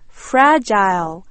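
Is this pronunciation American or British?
British. It is said with a British pronunciation. "영국 사람들은 fragile"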